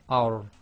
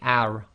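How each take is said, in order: First: The r is heavy, with the tongue back raised. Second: The r is light, with the tongue back lowered. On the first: The speaker calls it right. "you've got to lift the back of the tongue a little bit" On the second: The speaker calls it wrong. "you don't say ar"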